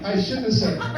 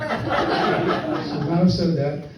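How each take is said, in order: First: Said in the usual way. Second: "I should not have said that" slowed right down, each word apart; slow, every word spelled out. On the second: Shown as a demonstration. Comic correcting himself to the crowd, slow and deliberate. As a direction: stretch out "should not" with a guilty laugh.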